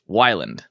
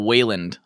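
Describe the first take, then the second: First: The first vowel sounds like 'why'. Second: The first vowel sounds like 'way'. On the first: This is how the owner says the name. The speaker calls it right. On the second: This is how other people say the name. The speaker calls it wrong. "I get I get uh Wayland a lot"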